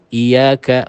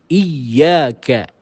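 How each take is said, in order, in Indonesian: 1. Huruf y yang ganda dibaca ringan. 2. Huruf y yang ganda dibaca dengan tekanan. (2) "kita baca dengan nabr atau tekanan"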